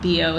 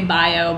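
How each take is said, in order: First: The first vowel sounds like 'ee'. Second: The first vowel sounds like 'eye'. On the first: The speaker calls it right. "but it's bio here" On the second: The speaker calls it wrong. "I always want to say bio"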